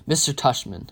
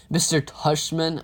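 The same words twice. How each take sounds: First: Said in the usual way. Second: Slower, questioning echo of the name; incredulous repeat. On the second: A narrator's reading. Child questioning mom about the principal's name, incredulous. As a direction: repeat it slowly, in mild disbelief.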